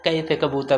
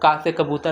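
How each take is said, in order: First: The first vowel is said like 'ai'. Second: The first vowel is a plain open 'aa'. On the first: "कै से कबूतर वो बोलते हैं" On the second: "का के बजाय"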